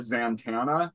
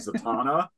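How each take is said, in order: First: An extra n sound comes before the t. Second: No extra n sound comes before the t. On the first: The speaker calls it wrong. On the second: The speaker calls it right.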